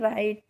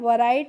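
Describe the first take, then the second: First: The word begins with an r sound. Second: The word begins with a w sound. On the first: The speaker calls it right. "इसको क्या पढ़ना है? राइट" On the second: The speaker calls it wrong. "वराइट नहीं पढ़ना है"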